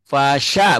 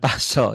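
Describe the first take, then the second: First: The vowel after sy is an open a. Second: The vowel after sy is a rounded o. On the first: The speaker calls it right. "A bukan huruf O" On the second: The speaker calls it wrong. "bukan paso"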